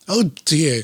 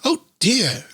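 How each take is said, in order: First: Said in the usual way. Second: Higher, lightly voiced rabbit crying out; a mild put-on bunny dismay. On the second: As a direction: reader voicing a little rabbit's cry. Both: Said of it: "not even trying to do the voice anymore".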